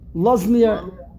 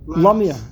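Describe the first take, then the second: First: The word is said in its full form. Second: The word is said quickly in a reduced form. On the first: "it stands for Lazmir" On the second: "when you say it quickly, it's Lamir"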